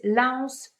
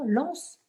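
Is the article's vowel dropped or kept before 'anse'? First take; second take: kept; dropped. First: The article keeps its full vowel before the noun. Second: The article's vowel is dropped and joined to the noun. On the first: The speaker calls it wrong. "elles disent la anse" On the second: The speaker calls it right. "Non, l'anse. C'est une voyelle. Donc, elle apostrophe"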